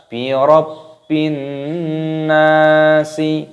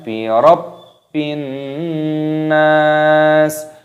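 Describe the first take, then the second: First: The last word ends with an added vowel. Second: The last word stops on the final consonant. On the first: The speaker calls it wrong. "jangan dibaca bi rabbin nasi, ya, tidak boleh" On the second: The speaker calls it right.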